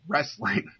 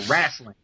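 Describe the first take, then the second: First: The first vowel sounds like 'e', as in rest. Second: The first vowel sounds like 'a', as in rassling. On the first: The speaker calls it right. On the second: The speaker calls it wrong.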